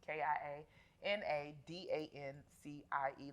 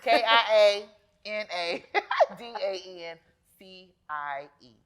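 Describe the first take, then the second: First: The letters are spelled out quickly. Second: The letters are spelled out slowly.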